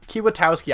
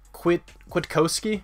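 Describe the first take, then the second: First: The name begins with a 'kee-wa' sound. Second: The name begins with a 'kwit' sound. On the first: This is the speaker's habitual way of saying it. The speaker calls it wrong. "I've always said Kiwatowski" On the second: This follows the spelling phonetically. The speaker calls it right. "It would probably be like Quit Kwiatkowski"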